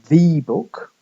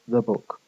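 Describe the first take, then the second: First: 'The' is stressed, with a full 'ee' vowel. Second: 'The' is unstressed, with a weak schwa vowel. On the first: "stressing the" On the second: "as opposed to"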